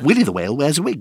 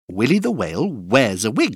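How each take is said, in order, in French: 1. La phrase est prononcée à un rythme très rapide. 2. La phrase est prononcée à un rythme rapide. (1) "Encore plus vite" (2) "plus vite"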